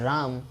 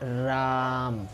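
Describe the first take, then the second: First: The vowel is said at normal length. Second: The vowel is stretched long, like a call. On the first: It is simply the word itself. "ये हो गया राम, वो तो अपना शब्द है" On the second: Someone is being called loudly. "राम जो आ बहुत ही बढ़ के हो रहा है"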